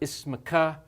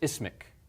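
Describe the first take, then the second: First: The word ends with a short vowel. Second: The word ends with a consonant. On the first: It is formal speech. "that sounds very formal" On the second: It is everyday speech. "the short vowel, at the end of the word is going to be dropped"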